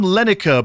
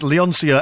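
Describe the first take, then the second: First: The name is said without an 'on' sound. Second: The name is said with an 'on' sound. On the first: This is how it was said before reading it properly. The speaker calls it wrong. "I've always pronounced it on Lenica" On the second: This is how it reads when read properly. The speaker calls it right. "now that I've actually properly read it, it's Leoncia"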